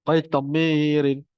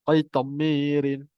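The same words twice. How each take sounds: No difference in how they are said.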